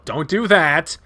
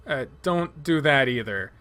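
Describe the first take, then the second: First: Louder, sharp urgent call; alarmed shout. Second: Said in the usual way. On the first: Acted. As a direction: snap it out in alarm. Stopping Leo falling asleep.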